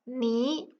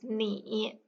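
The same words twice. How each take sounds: First: The syllable has a rising tone. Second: The syllable has a dipping tone. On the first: The syllable comes before another dipping-tone syllable. "It becomes a rising tone" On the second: The syllable is said on its own. "when pronounced individually is in the turning tone"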